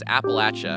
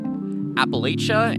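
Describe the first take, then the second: First: It is pronounced the way people from the region say it. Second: It is pronounced the way outsiders to the region say it. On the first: The speaker is from the region. "the people that live around here know and think it's" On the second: The speaker is not from the region. "A lot of out-of-towners say"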